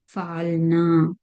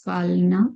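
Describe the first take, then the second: First: "falna" with the last a held long; lengthened final vowel. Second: "falna" with a short last a; short final vowel. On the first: Teacher showing how gender changes, long final vowel. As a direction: stretch the na of "falna" on a level note. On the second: Teacher showing how gender changes, short final vowel. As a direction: end "falna" quickly on a one-count na. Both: Shown as a demonstration. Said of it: "you'll be changing the gender, like in this case".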